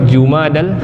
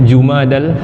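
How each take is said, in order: The two takes are said the same way.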